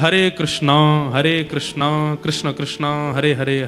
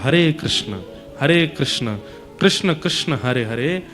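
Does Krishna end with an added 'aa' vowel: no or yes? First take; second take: yes; no. First: Krishna ends with an added long 'aa' vowel. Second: Krishna ends without any added vowel sound. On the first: This is the regional Bengali way of saying it. The speaker calls it wrong. "बंगाल की बोली में अकार आ जाता है" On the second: This is the actual form of the mantra. The speaker calls it right. "वास्तविकता में महामंत्र ... उसमें अकार मत लगाइए"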